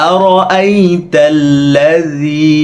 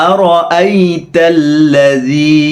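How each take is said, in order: Both takes have the same delivery.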